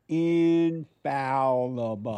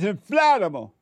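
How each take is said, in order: First: No extra L sound follows the F. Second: An extra L sound follows the F. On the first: The speaker calls it right. "That's correct" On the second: The speaker calls it wrong. "I try to correct you saying infallible"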